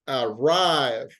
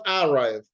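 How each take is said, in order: First: The stress is on the second syllable. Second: The stress is on the first syllable. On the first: The speaker calls it right. "the accent goes to the second part" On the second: The speaker calls it wrong. "it's not arrive"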